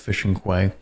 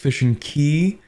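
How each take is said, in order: First: Quay is said with a kw sound, like kway. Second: Quay is said exactly like the word key. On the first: The speaker calls it wrong. "Apparently I pronounced that incorrectly" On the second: The speaker calls it right. "Apparently it's fishing key"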